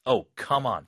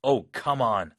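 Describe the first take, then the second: First: Frustrated. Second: More solemn. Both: Shown as a demonstration. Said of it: "좀 엄숙하게".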